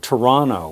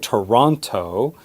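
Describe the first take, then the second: First: The T after the N is dropped. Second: The T after the N is clearly pronounced. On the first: The speaker calls it right. "Did you hear the way I just said my hometown?" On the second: The speaker calls it wrong. "We don't say Toronto"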